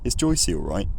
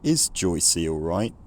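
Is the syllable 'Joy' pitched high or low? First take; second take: high; low. First: 'Joy' is pitched high, not dropping low. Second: 'Joy' drops very low, then pitch rises gradually. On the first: "Here the nuclear syllable is actually higher pitched" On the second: "the first syllable of Joycey, dropping down to a very low pitch. Is Joy, is Joy, and then a gradual rise towards the end"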